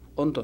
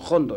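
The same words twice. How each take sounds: First: The word begins directly with a vowel sound. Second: The word begins with a breathy h sound. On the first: The speaker calls it wrong. "nosotros no le pronunciamos Hondo" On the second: The speaker calls it right. "sino Hondo, ¿no? Porque viene del cante jondo"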